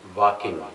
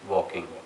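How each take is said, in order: First: The word is said in a distorted accent. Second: The word is said in a standard accent.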